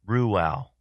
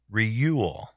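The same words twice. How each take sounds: First: Ruel said as "ROO-al"; corrected pronunciation. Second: Reuel said as "REE-yool"; mispronounced Reuel. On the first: Shown as a demonstration. Host correcting himself after hearing the app, Ruel pronounced "ROO-al". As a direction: say Ruel with a "roo" start, then a short "al". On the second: Real, not acted. Host guessing at a trivia answer's name, Reuel mispronounced as "REE-yool". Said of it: "So I was pronouncing it wrong".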